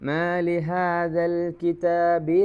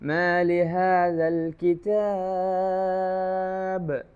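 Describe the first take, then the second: First: It runs straight on with a short vowel. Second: It stops with the long vowel drawn out. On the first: The reciter continues without stopping. "കൂട്ടി ഓതുമ്പോൾ" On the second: The reciter stops here. "അങ്ങനെ നീട്ടും"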